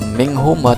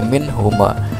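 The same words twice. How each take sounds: First: The n sound is blurred into the next sound. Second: The n sound is said clearly before the h. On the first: The speaker calls it wrong. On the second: The speaker calls it right. "Dibacanya jelas"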